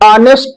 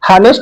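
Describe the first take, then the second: First: The word starts with a vowel, no h. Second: The word starts with an audible h sound. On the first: The speaker calls it right. "इसका pronunciation हमेशा आ से किया जाता है" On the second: The speaker calls it wrong. "हानेस्ट नहीं"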